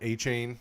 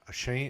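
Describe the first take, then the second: First: The last syllable sounds like 'chain'. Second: The last syllable sounds like 'shane'. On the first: "I keep saying it wrong" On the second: "I keep saying it wrong"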